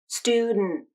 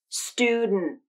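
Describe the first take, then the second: Both takes have the same delivery.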